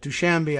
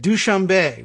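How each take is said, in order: First: The name is said with an American-sounding pronunciation. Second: The name is said with a French-sounding pronunciation. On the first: It is the usual English version. "is the Americanized version" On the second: It is how the film said it. "which made it sound like it was French"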